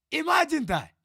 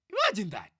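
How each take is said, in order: First: Louder, higher exclamation; exasperated, higher and louder; incredulous emphasis. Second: Said in the usual way. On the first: Real, not acted. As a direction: drive it home, raised and loud.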